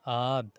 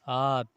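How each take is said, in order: The two takes are said the same way.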